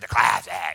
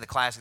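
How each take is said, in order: First: It is said in a cool, put-on announcer voice. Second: It is said in an ordinary, plain voice. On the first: "they always say the classic, you know, or something like that. Like you're cool" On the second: "They don't say the classic"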